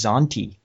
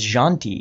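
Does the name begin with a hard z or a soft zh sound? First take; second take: hard z; soft zh. First: The name begins with a hard z sound. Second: The name begins with a soft zh sound. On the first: The speaker calls it wrong. "I had always pronounced his name as Zanti" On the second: The speaker calls it right. "It's kind of a J sound"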